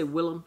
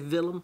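First: The name starts with a plain W sound. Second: The name starts with a V-like sound. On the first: This is how Americans say the name. "we say Willem in America" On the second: This is how people in the maker's home country say it. "They say Willem. It's got the kind of, the W's got the kind of V sound on it"

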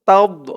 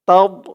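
Both takes have the same delivery.

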